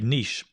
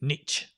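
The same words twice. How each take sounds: First: It is said with a British pronunciation. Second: It is said with an American pronunciation. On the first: "In England, we say niche" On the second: "In America, they say niche"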